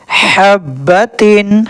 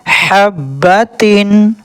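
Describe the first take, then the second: No difference in how they are said.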